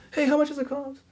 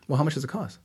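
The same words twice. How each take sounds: First: High, raised call to the back; calling out across office. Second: Said in the usual way. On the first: Retold or imitated. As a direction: shout the question to a coworker. Receptionist calls to coworker. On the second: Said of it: "and they'll say".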